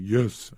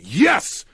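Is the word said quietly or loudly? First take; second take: quietly; loudly. First: It is said quietly and weakly. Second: It is yelled loudly and strongly.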